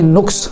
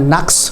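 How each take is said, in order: First: The first vowel is u. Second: The first vowel is a. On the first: The speaker calls it wrong. "ये नुक्स का लफ्ज़ गलत है पेश के साथ" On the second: The speaker calls it right. "ज़बर के साथ दुरुस्त है"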